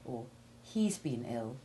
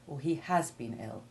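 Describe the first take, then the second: First: The verb is contracted onto the pronoun. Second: The verb is stressed with a full vowel. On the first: This is the ordinary conversational way. "you would more often say" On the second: The illness was especially severe. "put special stress on the severity of the illness"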